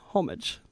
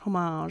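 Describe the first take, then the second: First: It is said the plain English way. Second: It is said the French way, rhyming with fromage.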